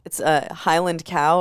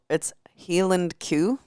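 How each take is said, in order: First: It is said in a standard accent. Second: It is said in a Glasgow accent.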